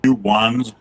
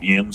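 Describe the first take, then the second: First: It is said as two full words. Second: It is said as one reduced word. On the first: The speaker calls it wrong. "I think they said it was supposed to be like U ones" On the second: The speaker calls it right. "but it's like yins"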